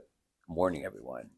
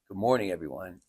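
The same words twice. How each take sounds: First: The greeting sounds stiff and serious. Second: The greeting sounds warm and friendly. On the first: The speaker is nervous. The speaker calls it wrong. "because we're all nervous, so we have the serious face" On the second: The speaker feels at ease with the listeners. The speaker calls it right. "warm face"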